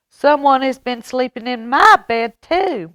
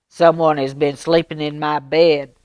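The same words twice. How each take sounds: First: Higher, louder cry with stress on "my"; mama bear cry. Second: Louder papa bear bellow. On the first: Mama Bear finding her bed slept in, crying out high. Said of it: "Mama Bear cried". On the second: Papa Bear finding his bed slept in, bellowing loud. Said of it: "Papa Bear bellowed". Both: Acted.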